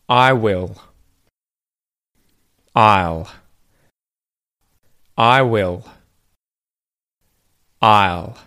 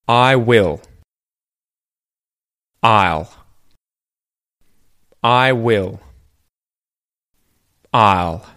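The two takes are said the same way.

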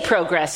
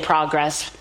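First: The word is said with a Commonwealth vowel. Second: The word is said with an American vowel. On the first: "You say progress here, right? ... Like everyone in the Commonwealth should say it" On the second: "You don't say progress"

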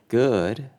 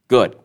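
First: The word is said at an unhurried pace. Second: The word is said quickly and clipped. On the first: "Instead of good" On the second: "A fast pace may signify that someone's in a rush, someone's angry, or someone's not interested"

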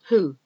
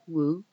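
First: No W sound is heard at the start. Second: A W sound is heard at the start. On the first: The speaker calls it right. "The W is silent" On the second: The speaker calls it wrong. "You don't say who"

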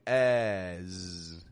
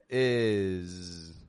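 First: The vowel is low with the jaw dropped. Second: The vowel sits between high and low. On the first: The speaker calls it wrong. "Nor are we dropping our jaw down, going as" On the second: The speaker calls it right. "But it's right in the middle"

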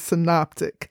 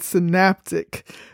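First: The second syllable sounds like 'nop'. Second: The second syllable sounds like 'nap'. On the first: The speaker calls it right. "The proper pronunciation is synoptic" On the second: The speaker calls it wrong. "I mispronounced this word. I pronounced it synaptic"

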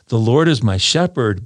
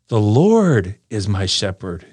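First: No word gets special stress. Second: The word Lord gets strong stress.

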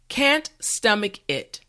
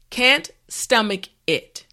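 Both takes have the same delivery.

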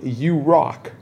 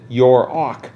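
First: The R sound starts the second syllable. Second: The R sound ends the first syllable.

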